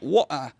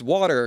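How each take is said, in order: First: The R sound is dropped, non-rhotic style. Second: The R sound is pronounced, American style. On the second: "you're pronouncing your R's. Hey, that's North American"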